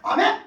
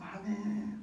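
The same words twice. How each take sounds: First: It sounds lively and strong, full of life. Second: It sounds weak, like a dying sick person.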